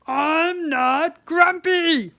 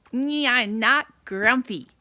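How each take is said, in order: First: Slow, much louder grumpy shout. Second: Insisting through a forced smile, slow and a little louder. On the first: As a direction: bellow it in a sulky temper. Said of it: "sorry for shouting at everyone". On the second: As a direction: force the words out past a fake smile. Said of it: "So Jim put on a smile". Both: Acted.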